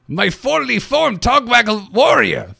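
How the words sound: It is said in a put-on Innkeeper voice.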